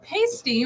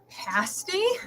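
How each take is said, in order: First: The first vowel sounds like the one in pay. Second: The first vowel sounds like the one in pass. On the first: It names a covering for a nipple. The speaker calls it wrong. "isn't that something for a nipple?" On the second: It names a pastry with a filling. The speaker calls it right. "which I think is right"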